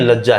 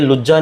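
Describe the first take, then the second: First: The first vowel is an 'a' sound. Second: The first vowel is a 'u' sound. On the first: The speaker calls it right. "लज्जा है" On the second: The speaker calls it wrong. "ये लुज्जा नहीं है"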